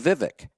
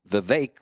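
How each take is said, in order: First: The last syllable does not rhyme with cake. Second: The last syllable rhymes with cake. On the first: The speaker calls it wrong. "I mispronounced his name" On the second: The speaker calls it right. "like it rhymes with cake"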